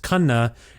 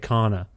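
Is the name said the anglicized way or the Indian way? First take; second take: Indian; anglicized. First: The name is said with its original Indian pronunciation. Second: The name is said with a simplified English pronunciation. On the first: The speaker calls it right. "I know the proper pronunciation. It's Khanna" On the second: The speaker calls it wrong. "assimilated it to Kana because I think it's easier for the whites to say"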